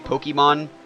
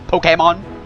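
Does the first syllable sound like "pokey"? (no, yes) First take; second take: yes; no. First: The first syllable sounds like 'pokey'. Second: The first syllable does not sound like 'pokey'. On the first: The speaker calls it wrong. "like Pokey" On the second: The speaker calls it right. "technically it's pronounced like"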